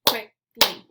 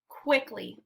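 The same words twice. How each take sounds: First: "Quickly" in two loud beats with a clear gap; syllable by syllable. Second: Said in the usual way. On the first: Shown as a demonstration. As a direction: clap out "Quickly", pausing between syllables. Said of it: "clap the syllables out". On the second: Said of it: "I'll say the word".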